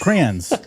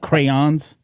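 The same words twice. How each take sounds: First: It is said in a northern pronunciation. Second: It is said in a non-northern pronunciation. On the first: This is how people from the north say it. The speaker calls it right. "I'm from the north. We say we say crayons" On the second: This is how people elsewhere say it. The speaker calls it wrong. "not crayons"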